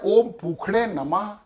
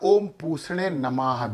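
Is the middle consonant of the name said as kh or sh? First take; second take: kh; sh. First: The middle consonant is a kh sound. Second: The middle consonant is a sh sound. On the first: "इसको संस्कृत में खा का उच्चारण दिया जाता है" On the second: "भी कहा जा सकता है"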